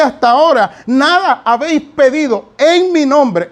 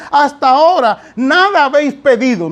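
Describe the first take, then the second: First: "en mi nombre" set apart and emphasized; stress on EN MI NOMBRE. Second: Said in the usual way. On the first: Shown as a demonstration. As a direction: hit "en mi nombre" as the missing key phrase. (énfasis marcado en "en mi nombre") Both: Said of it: "No dice así, dice".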